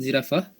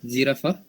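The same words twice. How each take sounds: Both takes have the same delivery.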